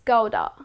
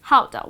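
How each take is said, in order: First: The word begins with a hard G sound. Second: The word begins with a breathy H-like sound. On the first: The speaker calls it wrong. "looking at the letter G, ... you would pronounce it as Gouda. But that's incorrect" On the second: The speaker calls it right. "So it goes like this. How? Gouda"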